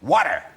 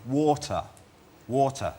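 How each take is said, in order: First: "water" loud, in an exaggerated American accent; American pronunciation. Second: "water" said the English way, crisp T; English pronunciation. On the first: Englishman giving in to Americans, "water" loudly as American "wadder". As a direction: hit "water" as American "wadder", with a hard final R. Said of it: "you become slightly American-y". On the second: Acted. Englishman repeating himself to baffled Americans, "water" with an English T. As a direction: repeat "water" with a British T and no final R. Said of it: "depends if you're asking for".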